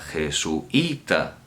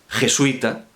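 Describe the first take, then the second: First: The u and i are split, stress on i. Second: The u and i form one diphthong syllable. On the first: "estamos rompiendo el diptongo, ¿m? Porque estamos acentuando la más cerrada" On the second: "vamos a escribirlo como si pronunciáramos jesuita"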